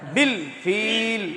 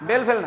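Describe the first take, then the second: First: The words are said with an 'i' vowel. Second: The words are said with an 'e' vowel. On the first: The speaker calls it right. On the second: The speaker calls it wrong.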